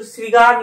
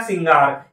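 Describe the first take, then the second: First: श्रृंगार as "srigaar", without the nasal; wrong pronunciation. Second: श्रृंगार as "singaar", with the nasal; correct pronunciation. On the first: Teacher rejecting the misspelling, "sri-gaar". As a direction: drop the "n" sound from श्रृंगार. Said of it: "नहीं होता". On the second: Teacher answering own question, nasal "singaar". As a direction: sound the "ng" in श्रृंगार. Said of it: "ये होता है क्या?". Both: Shown as a demonstration.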